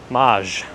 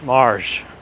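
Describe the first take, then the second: First: The word is said without an r sound. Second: The word is said with an r sound.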